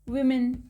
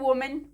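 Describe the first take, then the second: First: The first vowel sounds like short i. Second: The first vowel sounds like o. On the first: The speaker calls it right. "इसे पढ़ते हैं विमेन" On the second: The speaker calls it wrong. "लेकिन हम क्या पढ़ते हैं"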